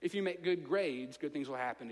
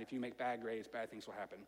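First: Said in the usual way. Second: Much lower and softer, ominous; dark, dropped voice. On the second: Shown as a demonstration. Preacher warns the congregation about bad grades, low and ominous. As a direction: let it sink low and grim. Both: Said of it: "good versus bad contrast".

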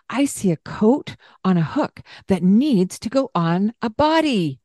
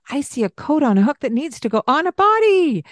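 First: Said in the usual way. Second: Higher, bright and playful; exciting tone. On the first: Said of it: "describing what you see". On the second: Shown as a demonstration. Parent to child, coat on, excited voice. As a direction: make it a fun little game. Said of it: "a tone of voice that's exciting".

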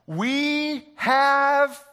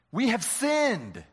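First: "We have" stretched, high and loud, hanging for the crowd; drawn-out prompt. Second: "We have sinned" said slowly with a falling "sinned"; slow completion. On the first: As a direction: hold "have" up high and loud, waiting for an answer. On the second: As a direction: finish the line slowly, landing on "sinned". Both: Shown as a demonstration. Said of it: "you think?".

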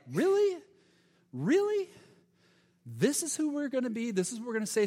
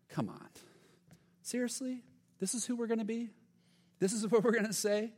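First: Much higher, louder incredulous Really; mock them in sharp high disbelief; sarcastic disbelief. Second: High, incredulous sarcasm; sarcastic. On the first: James scoffs at believers who only offer words, sarcastic. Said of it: "the sarcastic tone a little bit". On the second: Acted. James mocks believers who ignore the hungry, sarcastic. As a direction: scoff at empty words, pitched up. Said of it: "you catch almost the sarcastic tone".

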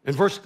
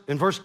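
No difference in how they are said.

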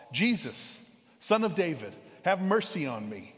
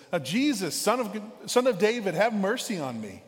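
First: Calling out to Jesus, raised a bit; a beggar's plea, called out moderately loud; yelling out. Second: Higher and louder, a desperate beggar crying out; louder yell. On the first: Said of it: "so he yells out". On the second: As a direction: call out louder so he can't be ignored. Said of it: "so he gets louder". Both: Retold or imitated.

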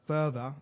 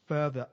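No difference in how they are said.

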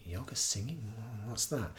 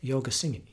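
First: Puzzled listener. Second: Said in the usual way. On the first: Retold or imitated. Listener hearing about kirtan for the first time, puzzled. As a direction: softly echo it as a puzzled question. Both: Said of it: "I tell people I'm doing kirtan".

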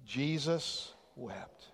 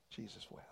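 First: Said slowly and deliberately, congregation joining; solemn slow recital; slow shared recitation. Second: Breathy whisper of the verse; hushed repeat of the verse. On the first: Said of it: "let's quote that verse together". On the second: Quoted again softly. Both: Shown as a demonstration.

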